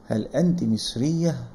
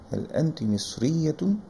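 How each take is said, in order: First: The last word ends in a short 'ah' sound. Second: The last word ends in a full 'atun' sound. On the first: The speaker stops after the word. "থামলে যেহেতু হা হয়ে যায়" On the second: The speaker carries on without stopping. "আর যদি না থামি তখন আমরা বলবো"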